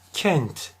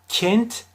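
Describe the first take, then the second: First: The E vowel is between open and closed. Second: The E vowel is strongly closed. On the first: The speaker calls it right. "Orta E telaffuzu olacak" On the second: The speaker calls it wrong. "kapatırsam çok fazla yanlış olur"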